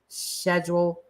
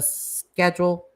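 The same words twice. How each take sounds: First: The word begins with an sh sound. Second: The word begins with an sk sound. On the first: This is the posher way of saying it. "it was more the posher people that do the schedule" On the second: This is how most people say it. "instead of the schedule"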